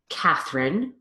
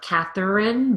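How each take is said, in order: First: The middle syllable is reduced. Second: The middle syllable is fully pronounced. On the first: The speaker calls it right. "both with phonemic reduction" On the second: The speaker calls it wrong. "not Catherine"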